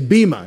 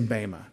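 First: The first vowel sounds like ee. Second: The first vowel sounds like ay. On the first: This is the modern Greek pronunciation. "If you hear people say bema, they're pronouncing it with a modern Greek pronunciation" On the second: This is the Erasmian pronunciation. "I was taught an Erasmian pronunciation, and the Ada says A"

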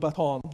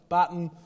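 First: Baton is said in an American pronunciation. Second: Baton is said in a non-American pronunciation. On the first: The speaker calls it right. "you know I mean baton" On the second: The speaker calls it wrong. "if I forget another time and I talk about a baton"

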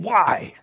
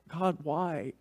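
First: It is said angrily and accusingly. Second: It is said humbly and pleadingly.

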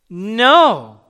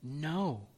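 First: It is said at the loudest level. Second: It is said at the softest level.

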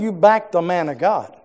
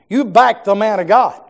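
First: It is said at a normal volume. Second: It is said at a louder volume.

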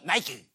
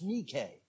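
First: The name is said the American way. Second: The name is said the Greek way.

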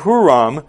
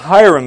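First: The name begins with a 'hoo' sound. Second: The name begins with a 'hi' sound.

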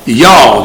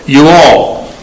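First: It is squeezed into one short syllable. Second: It is said as two full separate words.

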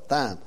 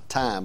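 First: The word begins with a th sound. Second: The word begins with a plain t sound. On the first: This is how the speaker personally says it, following the spelling. "but it's spelled T-H, so I call it thyme" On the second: This is how others usually say it. "I think they pronounce it thyme"

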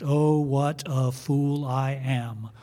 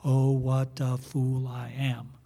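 The two takes are said the same way.

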